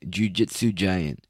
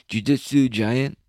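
First: Said in the usual way. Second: Jiu-jitsu giant said higher and slow, rising at the end; rising quizzical repeat. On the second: Shown as a demonstration. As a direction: savour the phrase, drawing it up.

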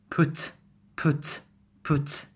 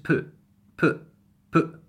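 First: Said in the usual way. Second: "put" as pu', cut short in the throat; glottal T. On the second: Shown as a demonstration. Teacher telling learners not to pronounce it, glottal "put". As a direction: say "put" with no released T. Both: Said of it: "You have not to pronounce the T".

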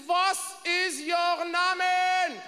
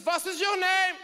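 First: Put-on very slow, drawn-out German-accented question; slow German demand. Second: Put-on higher, clipped German-accented demand; German stewardess question. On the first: Stewardess slowly demanding his name in a heavy German accent. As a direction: stretch every word like an interrogator. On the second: Stewardess demanding his name in a German accent. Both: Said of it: "She says".

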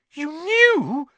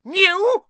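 First: Put-on high, loud boy's disbelief; shocked boy. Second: Sudden piercing high shriek. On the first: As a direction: ask in stunned accusation, voice raised high. Harry shocked at his relatives. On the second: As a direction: shriek it back in outrage. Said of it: "shrieked Aunt Petunia suddenly". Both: A narrator's reading.

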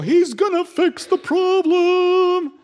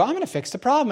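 First: Very high, drawn-out, loud mock rejoicing; mock crowd cheer. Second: Higher-pitched, brief self-assured declaration; confident announcement. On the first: Everyone hails the man fixing things, mock cheering. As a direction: stretch it out in exaggerated high celebration. Acting everyone's imagined adoring reply. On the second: Acted. Newcomer tells everyone he will fix things, confident.

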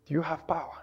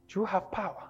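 First: Lower quiet question. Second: Quiet question. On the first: Repeated even lower. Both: Acted.

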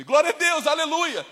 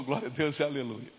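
First: High, loud hallelujah; insistent praise. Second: Low, soft hallelujah; subdued praise. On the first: Driver obeying God's command, loud insistent praise. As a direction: fling the praise out forcefully. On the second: Driver continuing to praise God, now low and subdued. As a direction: let the praise settle down quietly. Same praise, retold as it softens. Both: Retold or imitated.

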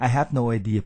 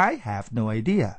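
First: "I have no idea" run together without English stress; wrong Thai-style intonation. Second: "I have no idea" slower, lower, with stressed "I"; correct English intonation. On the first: Teacher showing learners what it is not, Thai-style intonation. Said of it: "ไม่ใช่". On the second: Teacher correcting the Thai version, English intonation. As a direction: stretch "I" and lift the end of "idea". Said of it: "เปล่า". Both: Shown as a demonstration.

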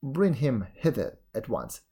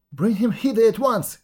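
First: Said in the usual way. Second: High and loud, bursting out; eager cry. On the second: A narrator's reading. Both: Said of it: "cried she".

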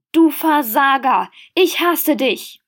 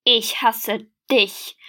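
First: Hateful shout. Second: Slow, breathless hate; panting. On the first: Furious quarrel by the river. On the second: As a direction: gasp it back, out of breath. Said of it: "keuchte er zurück". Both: A narrator's reading.

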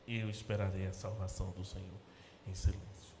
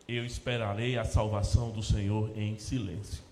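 First: Soft and low, sinking into a whisper on em silêncio; quiet, unvoiced ending. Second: Said in the usual way. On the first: Shown as a demonstration. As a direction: say it quietly, as if already in silence. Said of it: "repeats verse softly, in silence". (em voz baixa, quase sussurrando no fim) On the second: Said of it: "quoted verse read plainly".

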